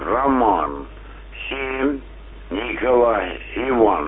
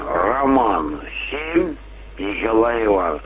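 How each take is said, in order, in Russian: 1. Позывной произносится медленнее. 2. Позывной произносится быстрее.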